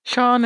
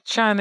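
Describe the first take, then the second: First: "Shan" said as SHAHN, with an AH vowel; own way of Shan. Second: "Shan" with the short A of "man"; alternative Shan. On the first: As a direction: say "Shan" with a long open A, as in "father". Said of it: "is how I would say it". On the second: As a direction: say "Shan" to rhyme with "can". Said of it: "another way to say it too". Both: Shown as a demonstration.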